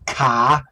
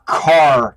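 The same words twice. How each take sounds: First: The final R sound is dropped entirely. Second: The final R sound is clearly pronounced. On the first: The speaker calls it wrong. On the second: The speaker calls it right.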